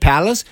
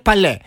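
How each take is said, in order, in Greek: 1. Προφέρεται με τον αγγλικό τρόπο, όπως το 'palace'. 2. Προφέρεται με τον γαλλικό τρόπο, όπως το 'palé'. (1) "Στα αγγλικά είναι Palace" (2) "στα γαλλικά είναι Παλέ"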